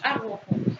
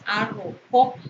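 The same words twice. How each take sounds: First: The stress is on the middle syllable. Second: The stress is on the last syllable. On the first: The speaker calls it wrong. "no es arrojo" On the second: The speaker calls it right. "Se pronuncia con mayor intensidad en la última sílaba"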